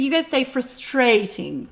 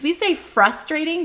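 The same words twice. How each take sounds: First: Frus-TRATE-ing, accent in the middle of "frustrating"; British pronunciation. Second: FRUS-trating, accent on the front of "frustrating"; American pronunciation. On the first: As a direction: stress "frustrating" on the second syllable. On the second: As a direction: stress "frustrating" on the first syllable. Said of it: "'cause we say frustrating". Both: Shown as a demonstration.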